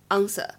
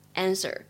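First: It is said with a British accent. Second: It is said with an American accent. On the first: "英式呢读作answer" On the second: "美式的话呢读作answer"

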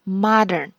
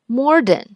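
First: No extra r sound is added in the word. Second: An extra r sound is added in the word. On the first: The speaker calls it right. "他们就说了modern" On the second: The speaker calls it wrong. "我以前总把它读成modern"

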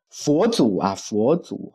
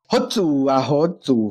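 First: It is said in standard Mandarin pronunciation. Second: It is said in Taiwanese-accented Mandarin. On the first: "我们觉得标准的普通话讲就是" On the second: "因为台湾国语这个不标准，就会变成"

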